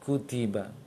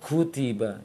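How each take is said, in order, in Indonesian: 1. Huruf k dilepaskan dengan udara yang sangat sedikit. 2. Huruf k dilepaskan dengan hembusan udara yang besar. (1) "Kecil, sangat kecil anginnya" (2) "Jangan kutiba"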